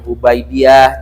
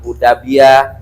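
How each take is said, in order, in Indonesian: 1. Suku katanya diucapkan hu-bai-di-yah. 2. Suku katanya diucapkan hu-da-bi-yah. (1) "jangan Hubaidiyah" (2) "jangan Hudabiyah"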